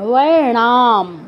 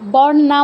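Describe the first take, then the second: First: The word begins with a 'w' sound. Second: The word begins with a 'b' sound. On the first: The speaker calls it right. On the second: The speaker calls it wrong. "বর নাম বলবেন না"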